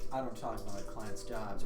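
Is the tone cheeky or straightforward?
straightforward. It is said plainly and matter-of-factly. "like a straightforward"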